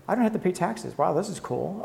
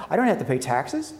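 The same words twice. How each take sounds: First: Mock delight. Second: Mock surprise. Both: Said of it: "this is the part where you go".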